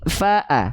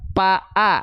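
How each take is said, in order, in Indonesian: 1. Konsonan pertama adalah bunyi F. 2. Konsonan pertama adalah bunyi P. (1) "tapi fa-a" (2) "Bukan kita baca pa-a"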